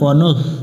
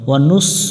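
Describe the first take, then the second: First: The final consonant is soft, with the tongue tip. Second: The final consonant is a sharp, hissed s. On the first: The speaker calls it right. "জিহব্বার আগা থেকে নরম করে পড়তে হবে" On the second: The speaker calls it wrong. "ওয়া নুস পড়া যাবে না"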